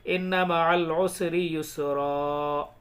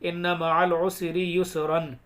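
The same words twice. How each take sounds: First: Slow recitation, युसरा ending on a long "raa"; measured verse, युसरा closed without any n; pausal alif ending. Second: Recited with युसरन closing on "-ran", n sounded; verse read out with the nasal n of युसरन kept; full tanween ending. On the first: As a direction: recite slowly and stretch the last vowel of युसरा. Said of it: "एक ज़बर के साथ अलिफ पढ़ा जाएगा". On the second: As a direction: finish युसरन on a short vowel plus clear n. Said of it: "हालांकि पढ़ा तो क्या जाना चाहिए". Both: Shown as a demonstration.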